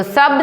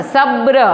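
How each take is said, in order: First: सब said short, as sab with no r; सब given as the wrong form, no final r; wrong pronunciation. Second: सब्र said with a final r, sab-ra; सब्र shown as the right form, sabr; correct pronunciation. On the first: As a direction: say सब as plain sab. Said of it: "सब नहीं होता". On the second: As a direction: add the r at the end of सब्र. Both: Shown as a demonstration.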